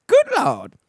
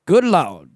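First: Good Lord squeaked way up high; hammed-up falsetto Good Lord; relieved squeal. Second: Said in the usual way. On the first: Real, not acted. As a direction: pitch Good Lord far higher in mock relief. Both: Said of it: "feels oh so good to be done".

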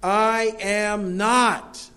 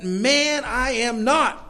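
First: I AM NOT drawn out very slowly, word by word, pitched high; emphatic. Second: High, indignant protest; emphatic denial. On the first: Preacher replaying Peter's denial, slow and emphatic. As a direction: stretch each word of "I am not" in firm denial. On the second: Peter denying Jesus to his accusers, emphatic and high. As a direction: raise the pitch sharply and protest it. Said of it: "made sure everybody heard it". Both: Acted.

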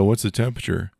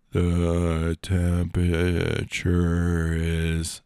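First: Said in the usual way. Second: Very slow, stretched assistant voice; slowed-down Alexa. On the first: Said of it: "really slows shit down". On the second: Acted. Reprogrammed Alexa answers the unsuspecting friend, very slowly. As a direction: drag each syllable out like a slowed machine. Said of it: "it really slows shit down".

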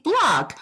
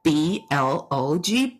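First: Said in the usual way. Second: B L O G spelled letter by letter, slowly and lower. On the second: Retold or imitated. Husband patiently spells B L O G for his wife, letter by letter. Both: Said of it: "And he's like".

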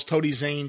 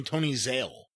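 First: "Zane" said with a clear final n, the right name; "Zane" ending in n, naming the wrestler correctly. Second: "Zale" said with a final l, the announcer's slip; "Zale" ending in l, mimicking the misnaming; wrong name Zale. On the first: Shown as a demonstration. Setting the record straight on the wrestler's name, plain Zane. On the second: Pointing out the announcer's repeated slip, Zale with an l. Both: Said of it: "calls Tony Zane Tony Zale".

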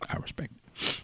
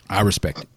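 First: Repeated in a breathy whisper. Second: Said in the usual way. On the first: Shown as a demonstration.

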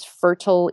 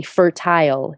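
First: Said in the usual way. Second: Fertile with a long "tile" ending; fertile, second syllable fully sounded like "tile"; Nairobi pronunciation. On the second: Shown as a demonstration. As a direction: say fertile as FUR-tile, rhyming with smile. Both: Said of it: "or as they say in Nairobi".

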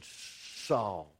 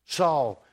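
First: Low, soft calling of the name; a hushed divine call. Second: Said in the usual way. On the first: Acted. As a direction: call his name low and quiet, as if from far off. God calls Saul from the light.

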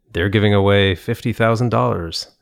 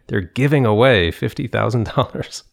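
First: THEY'RE pushed up at the start; wrong emphasis on "They're"; stress on they're. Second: "giving" lifted and stressed, "They're" left light; corrected stress on "giving"; stress on giving away. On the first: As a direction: lean on they're as if others might be giving it away. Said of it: "the coach was like, "Why do you emphasize there?". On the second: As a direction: put the weight on "giving away". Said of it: "The accent goes there". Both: Shown as a demonstration.

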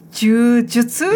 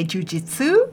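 First: "Jiu-jitsu" said slowly as "joo-jutsu", questioning; Japanese pronunciation. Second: "jiu-jitsu" said as "joo-JIT-soo"; American pronunciation. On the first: Learner checking how it's said, tentative Japanese "Jiu-jitsu" as joo-jutsu. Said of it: "Is that how it's said?". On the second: Explaining American English to co-host, "jiu-jitsu" with "jit" ending. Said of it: "in American English, we say". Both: Shown as a demonstration.

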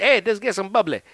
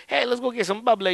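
First: A hint of a Southern good ol' boy offering drinks; Southern accent. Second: Higher mock Southern accent, said lightly. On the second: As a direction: put on a playful Southern accent. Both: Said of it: "you do the Southern accent".

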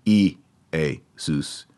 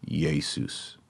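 First: E, A, sus said as separate vowel sounds; mock wrong reading of E, A, sus; wrong vowel-start Jesus. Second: Jesus said softly with a Y at the start; quiet correct Jesus with Y onset; Y-sound Jesus. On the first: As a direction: split it into E, A, sus like a mistake. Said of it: "So you would not say". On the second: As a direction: start Jesus with a Y, yay-sus. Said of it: "You're gonna make it a Y". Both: Shown as a demonstration.

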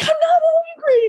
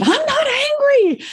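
First: High, cracking shouted denial; crying shout. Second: High, strained denial, much higher; insistent denial. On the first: Insisting to her friend she isn't angry, a crying shout. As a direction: yell it through tears, much higher. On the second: Friend says she's angry, Susan protests in a high denial. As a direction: protest too much, voice jumping up. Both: Retold or imitated.

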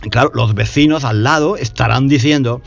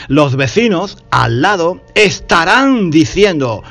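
First: Said in the usual way. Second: Estarán slowed and pushed out; estarán said slowly and leaned on; stress on estarán. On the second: Shown as a demonstration. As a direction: highlight the future tense estarán. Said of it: "futuro, uso el futuro".

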